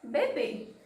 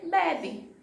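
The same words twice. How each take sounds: First: "beber" said as bebê, stress on the final syllable; stress on last syllable. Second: "bebe" with the stress on the first BE; stress on first syllable. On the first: Teacher presents the example word, stress on last syllable. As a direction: punch the end of "beber": be-BÊ. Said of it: "eu tenho a palavra". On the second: Teacher shows the word without accent, stress on first syllable. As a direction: lean slowly on the start: BE-be. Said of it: "Se não tivesse o acento". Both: Shown as a demonstration.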